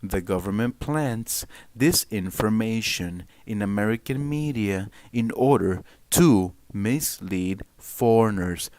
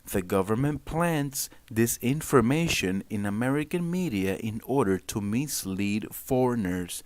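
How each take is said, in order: First: It is read in a news anchor voice. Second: It is read in his normal voice.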